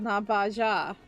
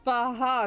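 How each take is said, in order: First: The middle consonant is an English j sound. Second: The middle consonant is a breathy h sound. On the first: The speaker calls it wrong. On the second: The speaker calls it right. "The J makes a huh sound in Spanish"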